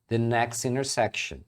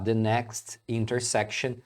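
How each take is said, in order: First: The T sounds are dropped. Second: The T sounds are pronounced. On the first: "você vai ouvir muito a pessoa pronunciar next intersection" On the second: "também está correto"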